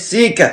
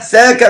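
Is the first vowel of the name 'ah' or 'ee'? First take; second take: ee; ah. First: The first vowel is a narrow 'ee' sound. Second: The first vowel is an open 'ah' sound. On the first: The speaker calls it wrong. "مش سيكا" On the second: The speaker calls it right. "ساكا مش سيكا"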